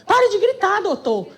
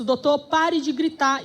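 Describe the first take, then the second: First: High-pitched mock yell. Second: Said in the usual way. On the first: Friend joining in against judge, high mock shout. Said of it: "E a [name] grita também". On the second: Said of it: "Com uma paciência que eu não esperava".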